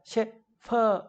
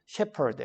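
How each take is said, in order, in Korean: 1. 가운데 자음은 F로 발음해요. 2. 가운데 자음은 P로 발음해요. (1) "shepherd 이렇게 발음하면 안 되는 거예요" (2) "그냥 shepherd 해야 돼요"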